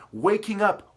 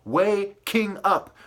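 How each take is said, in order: First: Said in the usual way. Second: "waking up" drawn out slowly, syllable by syllable; split wordplay. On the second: Shown as a demonstration. Ranter showing wordplay in "waking up", slowly split syllables. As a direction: pull "waking up" apart into way, king, up. Breaking words apart as wordplay.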